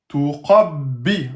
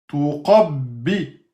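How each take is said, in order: Both takes have the same delivery.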